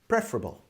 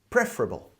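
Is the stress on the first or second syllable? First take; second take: first; first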